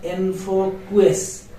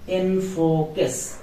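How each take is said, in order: First: Enfoques said slowly as enfokues, with qu as kw; wrong enfoques. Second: Enfoques said slowly as enfokes, with a k sound; correct enfoques. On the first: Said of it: "not enfoques". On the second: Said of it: "Q U A is a combined sound, K". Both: Shown as a demonstration.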